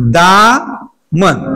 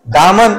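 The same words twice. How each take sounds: First: दामन stretched very slowly with a long आ; slow drawn demo. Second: Said in the usual way. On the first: Shown as a demonstration. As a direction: draw out दामन so every sound is heard. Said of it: "काय येणार बघा". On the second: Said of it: "काय लिहा?".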